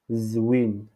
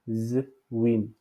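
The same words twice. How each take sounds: First: Said in the usual way. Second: "Zwin" split as a held z, then win; Z détaché. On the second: Shown as a demonstration. (« Zwin » avec le z détaché) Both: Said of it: "ici, on dit Z".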